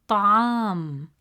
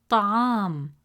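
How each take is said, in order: The two takes are said the same way.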